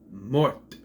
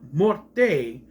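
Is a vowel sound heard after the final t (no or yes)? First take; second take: no; yes. First: The word ends on the t with no vowel. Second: A vowel sound is heard after the final t. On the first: The speaker calls it right. "You don't pronounce the E, it's mort" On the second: The speaker calls it wrong. "It's not morte"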